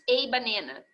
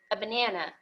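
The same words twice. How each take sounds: First: The article is a full, strong vowel. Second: The article is a short, reduced vowel. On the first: The speaker calls it wrong. "Raramente se diz a banana, já ouvi gente falar assim" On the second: The speaker calls it right. "é um A fechadinho"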